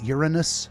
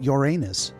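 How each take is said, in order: First: The name is said the standard way. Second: The name is said the funny-sounding way. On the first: "the actual pronunciation is Uranus" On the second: "Uranus sounds funnier"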